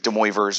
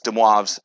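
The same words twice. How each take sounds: First: The name is pronounced with English-style sounds. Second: The name is pronounced with French sounds. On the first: The speaker calls it wrong. "It's not De Moivre's or anything like that" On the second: The speaker calls it right. "it's French. Um, that's how you say it"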